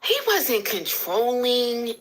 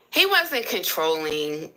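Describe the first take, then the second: First: Slow, stretched mock repeat; drawn-out echo. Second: Said in the usual way. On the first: Repeating the viewer's question to her live audience, slow and drawn out. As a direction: drag out each word as if mulling it over.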